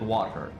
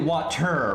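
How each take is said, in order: First: The middle T sound is dropped. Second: The middle T sound is clearly pronounced. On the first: "I didn't say the T" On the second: "You're supposed to say water"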